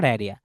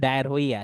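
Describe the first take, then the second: First: ডায়রিয়া run smoothly as it is spoken; usual pronunciation. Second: ডায়ার হইয়া read literally from the spelling; spelling pronunciation. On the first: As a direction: say ডায়রিয়া as "dai-ria", no h. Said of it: "উচ্চারণটা ডায়রিয়া". (ডায়রিয়া, প্রচলিত উচ্চারণে "ডায়-রিয়া") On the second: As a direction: sound out ডায়ার হইয়া as "dayar-hoiya", h voiced. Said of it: "স্পেলিংটা উচ্চারণ করতে গেলে". (ডায়ার হইয়া, বানান ধরে "হ" সহ উচ্চারণ) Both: Shown as a demonstration.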